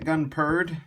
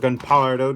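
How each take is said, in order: First: The name ends without a final vowel sound. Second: The name ends with an added 'o' sound. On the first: This is how the character says it. "how he pronounces it" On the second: This follows the written spelling. "how it's spelt"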